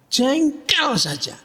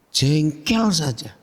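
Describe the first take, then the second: First: "Jengkel" pitched high and drawn out; emphatic repeat. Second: Said in the usual way. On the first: Real, not acted. Preacher repeating his punchline to listeners, "Jengkel" high and stretched.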